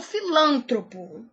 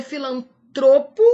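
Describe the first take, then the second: First: "filântropo" stressed fi-LÂN-tro-po; wrong stress. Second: "filantropo" stressed fi-lan-TRO-po; correct stress. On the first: Teacher warning against an error, stress on LÂN. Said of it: "e não". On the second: Teacher giving the correct form, stress on TRO. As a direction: punch TRO loudly in "filantropo". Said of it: "O certo é". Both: Shown as a demonstration.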